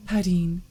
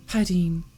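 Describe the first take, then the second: No difference in how they are said.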